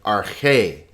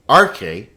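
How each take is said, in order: First: "arche" stressed on its final syllable; "arche" as ar-CHE; stress on second syllable. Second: "arche" stressed on its opening syllable; "arche" as AR-che; stress on first syllable. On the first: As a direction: keep "ar" light and land on "che" in "arche". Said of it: "but arche". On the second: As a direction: hit the "ar" of "arche", let "che" drop. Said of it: "not arche". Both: Shown as a demonstration.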